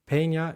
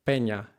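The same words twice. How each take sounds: First: Peña with an aspirated p and gliding e; Peña the American way; Peña, English pronunciation. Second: Peña with an unaspirated p and pure e; Peña the Spanish way; Peña, Spanish pronunciation. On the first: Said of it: "in English". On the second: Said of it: "in Spanish". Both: Shown as a demonstration.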